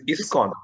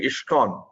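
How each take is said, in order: First: "iskcon" with a clean s, "iss-kon"; correct ISKCON pronunciation. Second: "iskcon" said with a sh sound, "ishkon"; mispronounced ISKCON. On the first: Reviewer correcting presenter's pronunciation, "iskcon" clearly said as "iss-kon". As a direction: say "iskcon" with plain s, no sh. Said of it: "pronunciation mistake. ... It is iskcon". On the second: Reviewer showing presenter her slip, "iskcon" mispronounced as "ishkon". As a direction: imitate the slip, turning the s of "iskcon" into sh. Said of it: "pronunciation mistake. You are saying". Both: Shown as a demonstration.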